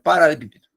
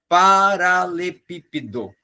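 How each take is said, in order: First: The word is rushed and run together quickly. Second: The word is said slowly with clear syllables. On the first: The speaker calls it wrong. "Porque eu falei muito rápido" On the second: The speaker calls it right. "fale mais pausado"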